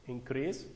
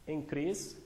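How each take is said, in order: The two takes are said the same way.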